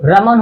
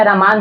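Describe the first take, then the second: First: रमन with short, unstretched vowels. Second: रमान with a long second vowel. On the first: (रमन, छोटे स्वर के साथ) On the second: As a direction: stretch the maa in रमान. (रमान, मा को लंबा खींचकर) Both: Shown as a demonstration. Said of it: "उससे कोई मतलब नहीं है".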